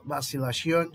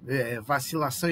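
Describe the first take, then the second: First: "vacilação" dito à espanhola, terminando em "-sion"; pronúncia espanhola. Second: "vacilação" em português, com final nasal "-ção"; pronúncia portuguesa. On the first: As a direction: diga "vacilação" como "vacilación", com final espanhol. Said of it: "Para expressar dúvida". ("vacilação" com sotaque espanhol, terminando em "-sión") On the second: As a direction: diga "vacilação" à brasileira, nasalizando o fim. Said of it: "Então, para expressar dúvida". ("vacilação" com o "-ção" nasal do português) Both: Shown as a demonstration.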